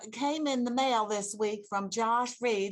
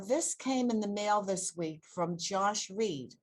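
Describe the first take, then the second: First: It is said in a Mississippi accent. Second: It is said in her ordinary accent.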